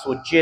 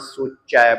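First: The word ends in a plain 'e' vowel. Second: The word ends in an 'ai' vowel. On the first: The speaker calls it wrong. "ਇੱਕ ਲਾਂ ਲਾ ਕੇ ਸੋਚੇ ਨਹੀਂ ਬੋਲਣਾ" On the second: The speaker calls it right. "ਸੋਚੈ ਬੋਲਣਾ ਹੈ"

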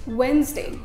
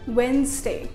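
Both takes have the same delivery.

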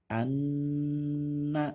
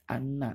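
First: The nasal sound is held long and stressed. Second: The nasal sound is said quickly and short. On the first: The speaker calls it right. "ditekan dan ditahan dua harokat" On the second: The speaker calls it wrong. "tidak boleh dibaca seperti itu"

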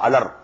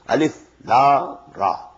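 First: The letters are joined into one short word. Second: Each letter name is said separately. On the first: The speaker calls it wrong. "Alif Lam Ra Alar, no" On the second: The speaker calls it right. "These are pronounced separately"

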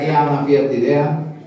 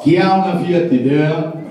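First: It is said in his normal voice. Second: It is said in a radio-announcer voice.

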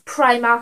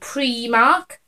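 First: The first vowel sounds like 'eye'. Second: The first vowel sounds like 'ee'. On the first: The letter is read the usual English way. The speaker calls it wrong. "everyone goes Primark and I'm always correcting them" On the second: The letter is read the Welsh way. The speaker calls it right. "an I in Welsh is an E sound... Like E"

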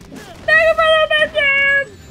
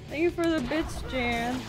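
First: It is said with much more emotion. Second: It is said plainly, without much emotion.

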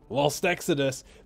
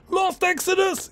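First: It is said plainly, without extra emphasis. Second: It is said dramatically, with excited emphasis.

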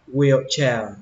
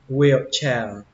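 Both takes have the same delivery.

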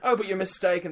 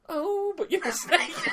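First: It is said in his normal voice. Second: It is said in a camp put-on voice.

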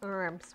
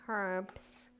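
First: It is said the American way. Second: It is said the speaker's own non-American way. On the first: The speaker calls it wrong. "Not herbs, which some of my American family says" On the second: The speaker calls it right. "That would be herbs"

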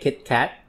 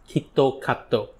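First: It is said as two short closed syllables. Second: It is said with added vowels after consonants. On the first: "they don't say Kit Kat" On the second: "They pronounce it as Kitokato"

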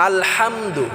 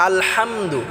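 No difference in how they are said.

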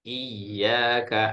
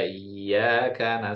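First: The y sound is pressed and doubled. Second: The y sound is short and single. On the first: It means worship is for God alone. The speaker calls it right. "saya coba ditekan" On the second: It sounds like worshipping the sunlight. The speaker calls it wrong. "banyak Bu yang bacanya iya karena na'budu"

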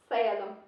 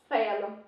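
Both takes have the same delivery.

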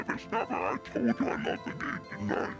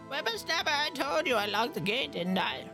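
First: It is said in an evil voice. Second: It is said in a normal voice.

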